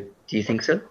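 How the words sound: The voice rises at the end. "You don't actually have to go"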